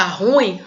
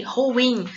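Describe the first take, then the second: First: Ruim as RÚ-im, stress on RU; wrong stress. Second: Ruim as ru-IM, two syllables; stress on the I. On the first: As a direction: say ruim as one syllable falling away from RU. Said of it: "como se a sílaba tônica fosse no ru". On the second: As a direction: say ruim leaning on the final IM. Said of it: "a sílaba tônica é no i". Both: Shown as a demonstration.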